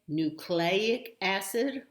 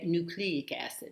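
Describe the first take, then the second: First: The middle syllable sounds like 'clay'. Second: The middle syllable sounds like 'clee'. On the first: "which is the way I learned it and hear it" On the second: "I guess that sounds a little more erudite"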